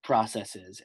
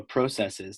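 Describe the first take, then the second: First: "processes" with a short "prah" first syllable; American pronunciation. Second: "processes" with a long O, PRO-; Canadian pronunciation. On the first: Host shows both regional versions to the guest, American "processes". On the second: Host shows both regional versions to the guest, Canadian "processes". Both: Shown as a demonstration. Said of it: "depending on where we're from".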